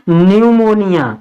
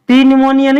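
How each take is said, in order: First: The word begins directly with an n sound. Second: The word begins with a spoken p sound. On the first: The speaker calls it right. "पी silent रहता है" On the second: The speaker calls it wrong. "पी न्यूमोनिया नहीं पढ़ेंगे इसको"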